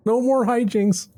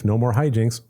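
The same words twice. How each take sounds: First: Much higher, slow sing-song vow; mock solemn promise. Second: Said in the usual way. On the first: Promising the cousin no more trouble, in a high slow sing-song. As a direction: swear it like a sweet little scout, slowly. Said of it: "Scout's honor".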